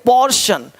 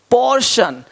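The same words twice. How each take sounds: The two takes are said the same way.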